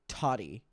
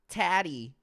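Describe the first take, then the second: First: The first vowel sounds like in potty. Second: The first vowel does not sound like potty. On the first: The speaker calls it right. "Potty with a T" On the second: The speaker calls it wrong. "See, I would say it like that"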